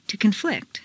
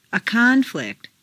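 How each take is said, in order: First: ConFLICT, stressed on the second syllable. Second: CONflict, stressed on the first syllable. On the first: Teacher models verb "conflict", second-syllable stress. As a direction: hit FLICT in "conflict". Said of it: "to the second syllable". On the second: Teacher models noun "conflict", first-syllable stress. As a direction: hit CON in "conflict". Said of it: "first syllable for nouns". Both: Shown as a demonstration.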